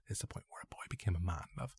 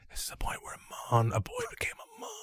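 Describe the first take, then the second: First: Low, very soft and quick; hushed, hurried retelling; sore-throat excuse. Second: Breathy mock-intimate whisper; hammed-up whispered solemnity; deep whisper. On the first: Retold or imitated. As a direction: mumble it quietly, passing it off. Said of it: "I had a really sore throat". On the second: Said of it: "I just whispered deep into her voice".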